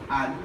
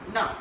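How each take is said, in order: First: The word is reduced to a weak un. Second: The word is reduced further to na. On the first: "weak is un" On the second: "another weaker is na"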